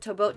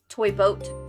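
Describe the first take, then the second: First: The phrase is said at a fast pace. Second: The phrase is said at a slow pace.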